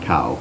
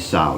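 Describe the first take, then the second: First: The name begins with a K sound. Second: The name begins with an S-like sound. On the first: The speaker calls it wrong. "not cow" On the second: The speaker calls it right. "it's supposed to be sow"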